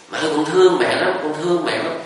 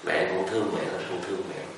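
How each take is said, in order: First: Higher, called out into the forest; child calling out. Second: Much softer, fading echo; faint echo. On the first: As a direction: shout it into the woods. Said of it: "con la lớn lên". (đứa bé la lớn vào rừng, giọng cao) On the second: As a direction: let it come back faint and far. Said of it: "trong rừng cũng có tiếng giận lại". (tiếng vọng nhỏ dần từ trong rừng) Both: Retold or imitated.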